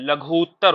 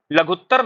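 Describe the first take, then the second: First: लघुत्तर as "laghoo-ttar", slow long "oo"; correct long vowel. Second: लघुत्तर with a short "u"; wrong pronunciation. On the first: Teacher gives students the right word, long-vowelled. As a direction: stretch the "oo" in लघुत्तर. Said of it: "क्या होता है". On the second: Teacher quotes the mistake to students, mispronounced. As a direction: run "ghut" together briefly in लघुत्तर. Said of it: "नहीं होता है". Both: Shown as a demonstration.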